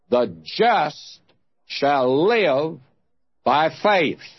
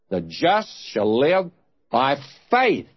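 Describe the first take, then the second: First: The word live is stressed. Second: The word faith is stressed.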